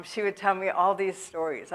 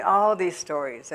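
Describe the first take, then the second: First: Said in the usual way. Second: "all" stressed and drawn out for emphasis. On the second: Real, not acted. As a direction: lean hard on the word "all". Repeats it for emphasis.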